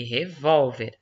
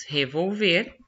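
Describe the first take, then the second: First: Revólver stressed on VOL, open o; stress on middle syllable. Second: Revolver stressed on the final VER, closed e; stress on last syllable. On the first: Teacher contrasting two words for pupils, revólver with stress on VOL. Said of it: "a sílaba tônica é o vol". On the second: Teacher contrasting two words for pupils, revolver with stress on VER. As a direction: lean on the end of revolver: re-vol-VER. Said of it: "Sílaba tônica aqui é o ver". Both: Shown as a demonstration.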